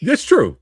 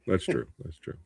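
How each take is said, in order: First: First take firm and full; firm agreement. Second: Much softer, trailing off like an echo; fading echo. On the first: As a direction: say it out strongly. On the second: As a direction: let it die away. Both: Acted. Agreeing, repeated fading out.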